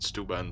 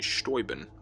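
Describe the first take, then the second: First: The name is said the local American way. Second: The name is said the original German way. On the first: This is how people in the area say it. "everyone around here calls it" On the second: This is the original pronunciation. "as it's properly pronounced"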